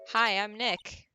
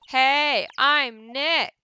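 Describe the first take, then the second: First: It is said at a normal, quiet volume. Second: It is said loudly, almost shouted.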